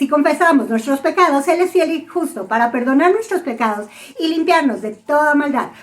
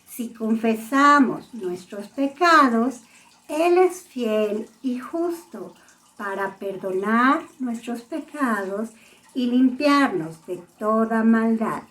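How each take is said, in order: First: It is said very fast. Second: It is said very slowly.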